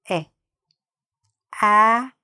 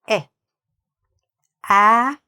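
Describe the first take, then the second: The two takes are said the same way.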